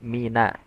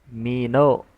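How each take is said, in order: First: The n syllable is thin and bright. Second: The n syllable is thick and dark. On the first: The speaker calls it right. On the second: The speaker calls it wrong. "Huruf nun jangan dibaca tebal"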